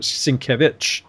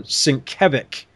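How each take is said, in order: First: Sienkiewicz said as "sin-KEV-itch", ending in "itch"; correct name pronunciation. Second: Sienkiewicz said as "sin-KEV-ick", ending in a hard k; mispronounced name. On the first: Host quoting the artist's own way of saying it, correct pronunciation. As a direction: finish Sienkiewicz on a "-vitch" sound, not "-vick". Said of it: "and he says". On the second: Host admitting how they always mispronounced it, wrong pronunciation. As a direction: end Sienkiewicz on "-ick" instead of "-itch". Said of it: "I've always mispronounced it". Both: Shown as a demonstration.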